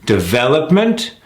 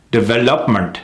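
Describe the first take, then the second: First: DEVELOPMENT with long VEL, rising; correct stress on development. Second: DEVELOPMENT short, misplaced stress, falling; mis-stressed development. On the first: Coach contrasting for learners, stressed de-VEL-opment. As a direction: lift and stretch VEL in DEVELOPMENT. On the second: Coach showing the wrong take, mis-stressed DEVELOPMENT. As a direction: skim over VEL in DEVELOPMENT. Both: Shown as a demonstration. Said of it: "You hear the difference?".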